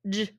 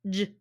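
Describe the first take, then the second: No difference in how they are said.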